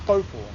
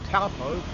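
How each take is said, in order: First: The au is said as an o. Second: The au is said as another vowel. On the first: The speaker calls it right. "A U is pronounced O" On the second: The speaker calls it wrong. "it's not taupo"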